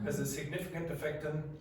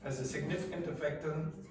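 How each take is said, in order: No difference in how they are said.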